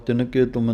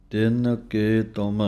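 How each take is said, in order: First: ਤਿੰਨ ਕੇ ਤੁਮ rushed together as one word, with no gaps; run together. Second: ਤਿੰਨ ਕੇ ਤੁਮ said with small gaps between each word; separated words. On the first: Teacher showing the wrong joined reading of ਤਿੰਨ ਕੇ ਤੁਮ. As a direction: say ਤਿੰਨ ਕੇ ਤੁਮ in one breath without pauses. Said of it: "ਇਕੱਠਾ ਪਾਠ ... ਨਹੀਂ ਕਹਿ ਦੇਣਾ". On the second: Teacher showing students to separate ਤਿੰਨ ਕੇ ਤੁਮ with small pauses. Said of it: "ਥੋੜ੍ਹਾ ਥੋੜ੍ਹਾ ਨਖੇੜ ਕਰਕੇ ਬੋਲਣਾ ਹੈ". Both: Shown as a demonstration.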